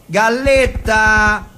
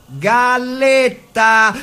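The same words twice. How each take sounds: The two takes are said the same way.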